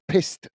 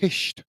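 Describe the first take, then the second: First: The word has a plain s sound before t. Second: The word has an sh sound before t. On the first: "You don't say it as pissed" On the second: "you say it as pished"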